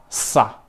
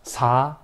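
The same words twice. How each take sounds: First: "sa" with a long hissed, tense s. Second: "sa" with a light, relaxed s; plain normal SA. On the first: Teacher showing students that sound, tense hissed sa. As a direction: hold the s, then a short tight a. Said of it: "es tensa". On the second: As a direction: say sa easily, vowel lifted. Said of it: "piensa que sa normal". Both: Shown as a demonstration.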